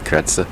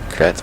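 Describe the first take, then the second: First: The final consonant sound is clearly pronounced. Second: The final consonant sound is left silent. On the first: "but it might be Kretz" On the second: "you don't necessarily pronounce like the last letter, so it might be Kretz"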